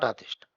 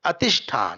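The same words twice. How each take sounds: First: Atishtha opening on a long "aa"; mistaken long A. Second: Atishtha with a short first "uh" vowel. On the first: Teacher shows what not to say, Atishtha with long first A. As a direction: draw out the first vowel of Atishtha. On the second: Teacher repeats the corrected word, Atishtha with short first A. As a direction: keep the opening A of Atishtha brief. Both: Shown as a demonstration. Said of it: "not Atishtha".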